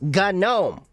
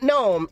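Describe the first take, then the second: First: The starting G is pronounced. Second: The starting G is silent. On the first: The speaker calls it right. "it's GNOME" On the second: The speaker calls it wrong. "Not GNOME"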